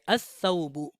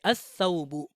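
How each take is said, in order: First: The L is silent, the S is doubled. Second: The L is silent, the S is doubled.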